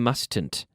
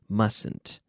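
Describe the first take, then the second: First: The first T sound is pronounced. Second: The first T sound is silent. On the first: The speaker calls it wrong. "We don't say mustn't" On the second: The speaker calls it right. "that first T is silent"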